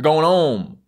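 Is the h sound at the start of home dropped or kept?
dropped. The word home starts without an h sound. "you take it off"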